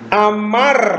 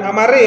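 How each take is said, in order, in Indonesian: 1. Kata itu berakhir dengan konsonan "r". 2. Kata itu berakhir dengan bunyi vokal tambahan.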